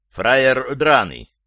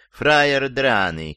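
First: Contemptuous, attacking "Фраер драный", slow and loud; russian prison slang. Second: Prim, over-polite "фраер драный"; too refined. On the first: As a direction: spit out "Фраер драный" like a tough boss. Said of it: "Вот, уже ближе". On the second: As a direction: say "фраер драный" like an intellectual, slowly. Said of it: "слишком интеллигентно". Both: Shown as a demonstration.

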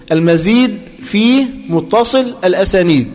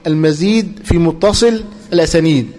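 First: Slow, deliberate: المزيد في متصل الأسانيد, word by word; teacher dictating المزيد في متصل الأسانيد at a slow, even pace; slow dictation. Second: Said in the usual way. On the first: Shown as a demonstration. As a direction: spell out المزيد في متصل الأسانيد slowly for the class to write.

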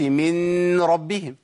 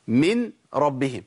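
First: من ربهم with a long hum on the n before the r; wrong nasal merge. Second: من ربهم with a short, distinct n before the r; unmerged, unhurried من ربهم; clear separate nun. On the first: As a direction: drag the n of من through the nose into ربهم. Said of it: "ما ينفعش". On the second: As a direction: pronounce the n of من fully, then ربهم. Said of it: "طب نحقق كده". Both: Shown as a demonstration.

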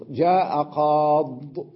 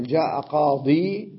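First: Very slow جاء قاض, stretched "qaaad"; yaa dropped. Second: Slow جاء قاضي, ending "qaadii"; full final yaa. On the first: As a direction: hold the aa in قاض, then close on bare d. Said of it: "يحذف الياء". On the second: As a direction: hold the long ii at the end of قاضي. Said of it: "لما يريد أن يقول". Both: Shown as a demonstration.

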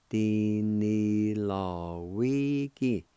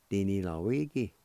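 First: Slow, drawn-out Cherokee word; careful teacher demo of Di ni law wi ki. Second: Said in the usual way. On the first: Shown as a demonstration. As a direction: stretch every syllable of Di ni law wi ki out slowly. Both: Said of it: "it's pronounced like this".

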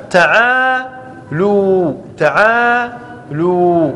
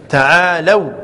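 First: تعالوا stretched slowly as ta'ālū, long "oo"; variant damma reading. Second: تعالوا said ta'ālaw, ending in "aw"; correct fatha form. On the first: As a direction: draw out both long vowels of تعالوا, ending "loo". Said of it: "وقرأ الحسن في قراءة الشاذة". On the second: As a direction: keep the lam of تعالوا open, gliding to "aw". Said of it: "الصحيح والفصيح أو الأفصح". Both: Shown as a demonstration.

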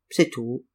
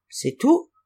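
First: "C'est tout." said low and falling, stress on "C'est"; low flat reply. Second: "C'est tout?" asked with a sharp rising tune on "tout"; questioning rise. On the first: Innkeeper answers the traveller, low and falling finality. Innkeeper confirms, that's all. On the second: Traveller asks the innkeeper if that is all, rising question. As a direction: lift "tout" up high as a surprised question. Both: Acted.

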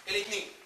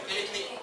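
No difference in how they are said.

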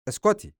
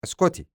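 First: Very high, agitated "اسكتي"; desperate order to stop, pitch leaping up; escalating angry outburst. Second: High, sudden order to stop; agitated "اسكتي", pitched up and falling; angry outburst. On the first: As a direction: cry "اسكتي" at a much higher pitch. Acted quarrel, repeats it higher. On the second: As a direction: cut her off with a higher-pitched "اسكتي". Acted quarrel, cutting her off. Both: Acted.

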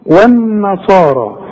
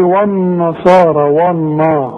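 First: والنصارى slow, with the و kept thin; والنصارى with a light و and a long صا; Quranic recitation. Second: والنصارى with a thick, heavy و; mock the student's heavy والنا; wrong heavy و. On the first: Teacher recites والنصارى slowly for a student. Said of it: "زي ما أنا نطقتها". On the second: Teacher mimics the student's mistake, والنا too thick. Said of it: "غلط". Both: Shown as a demonstration.

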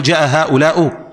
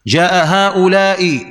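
First: هؤلاء ending in "u", haa'ulaa-u; wrong damma ending. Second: هؤلاء ending in a short "i", haa'ulaa-i; slow teaching demo of هؤلاء closed on kasra. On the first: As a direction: swap the ending of هؤلاء to a short "u". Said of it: "يصلح؟". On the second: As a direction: say هؤلاء slowly with a clear final "i". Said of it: "مثال مبني على الكسر". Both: Shown as a demonstration.

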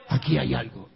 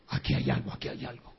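First: Said in the usual way. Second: Whispered, unvoiced and suspicious; hushed whisper. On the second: Jealous husband whispering his suspicion to himself. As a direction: breathe it like a secret suspicion.

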